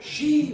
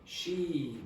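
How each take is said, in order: First: It is emphasized by a jump up in pitch. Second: It is emphasized by lengthening, with little pitch change. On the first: The speaker calls it right. "you see the pitch went up there" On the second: The speaker calls it wrong. "just make it longer rather than change the pitch so much"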